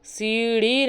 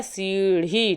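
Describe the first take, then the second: First: सीढ़ी with an unaspirated flap, "seeri"; no breath on the flap in सीढ़ी; wrong form. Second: सीढ़ी with an aspirated flap, "seerhi"; correct form. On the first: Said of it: "सीढ़ी नहीं होता है". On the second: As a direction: breathe out on the ढ़ of सीढ़ी. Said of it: "ढक्कन वाला ढा होता है". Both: Shown as a demonstration.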